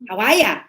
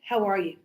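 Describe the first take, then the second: First: It is said in a relaxed Australian accent. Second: It is said in a standard, neutral accent. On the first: "then you learn the Aussie" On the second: "we teach you"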